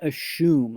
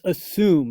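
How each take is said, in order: First: The middle consonant is a sh sound. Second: The middle consonant is a plain s sound. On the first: The speaker calls it wrong. "not assume. ... you would need an H for it to make a sh sound" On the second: The speaker calls it right. "It's assume"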